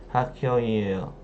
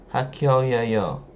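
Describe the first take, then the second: No difference in how they are said.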